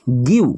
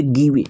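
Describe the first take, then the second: First: गिव said as one clipped syllable, giv, no final vowel; correct reading. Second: गिवे read letter by letter as gi-ve, the wrong way. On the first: Teacher giving students the right reading, one short syllable giv. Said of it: "इसको हम पढ़ेंगे जीआईवीई". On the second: Teacher showing students the wrong reading, spelled out as gi-ve. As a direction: sound out गिवे as two syllables, gi then ve. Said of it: "नहीं, ये गलत तरीका हो गया". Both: Shown as a demonstration.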